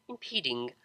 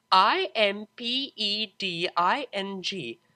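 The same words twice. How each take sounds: First: Said in the usual way. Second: I M P E D I N G said slowly letter by letter; spelled letter by letter. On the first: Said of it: "spelling the word". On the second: A narrator's reading. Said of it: "spells the word".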